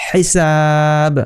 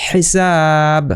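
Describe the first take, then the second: The two takes are said the same way.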